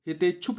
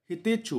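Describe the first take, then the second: First: हितेच्छुक closed with a final k; wrong word form. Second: हितेच्छु ending open on "chhu"; corrected word form. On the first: Teacher rejecting the mistaken form, हितेच्छुक with final k. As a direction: say हितेच्छुक ending in "chhuk". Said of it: "हितेच्छुक नहीं होता है". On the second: Teacher giving the correct form, हितेच्छु without k. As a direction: say हितेच्छु with no final k. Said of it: "हितेच्छु होता है". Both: Shown as a demonstration.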